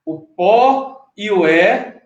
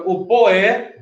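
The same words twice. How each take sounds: First: "pó" and "é" set apart, slowly; sílabas separadas. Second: "poé" joined in one glide; sílabas unidas. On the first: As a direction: say "o pó e o é" slowly, each vowel standing on its own. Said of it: "Ele, ele une". ("pó" e "é" bem separados, devagar) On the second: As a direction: run "pó" straight into "é" as "poé". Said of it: "fica o poé". ("poé" emendado, sem pausa) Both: Shown as a demonstration.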